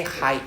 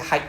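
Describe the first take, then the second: First: Hi said as the English greeting; wrong hi. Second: Hi said as in haite; right hi. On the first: Teacher contrasts the wrong hi with the right one. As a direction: say hi like the English word hi. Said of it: "I didn't say hi". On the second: Teacher shows the right hi in haite. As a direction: say hi as the first sound of haite. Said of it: "I said hi". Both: Shown as a demonstration.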